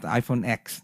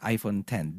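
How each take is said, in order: First: The last part is said as the letter 'ex'. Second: The last part is said as the number 'ten'. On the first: The speaker calls it wrong. "it's not iPhone X" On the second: The speaker calls it right. "it's iPhone 10"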